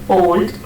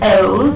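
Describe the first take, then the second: First: The vowel sounds Indian English. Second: The vowel sounds British English.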